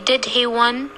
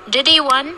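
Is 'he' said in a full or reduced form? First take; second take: full; reduced. First: The word 'he' is full, with a clear 'h' sound. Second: The word 'he' is reduced, with no 'h' sound. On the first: The speaker calls it wrong. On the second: The speaker calls it right.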